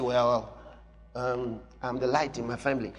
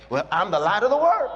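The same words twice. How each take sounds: First: Lower, softer, hesitant imitation; timid mock quote. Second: Bold declaration. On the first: Preacher mocking a timid believer, small hesitant voice. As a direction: shrink it down like a shy believer. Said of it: "So you say". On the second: Shown as a demonstration. Preacher showing the bold confession, firm declaration. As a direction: claim it boldly. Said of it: "The family is too small".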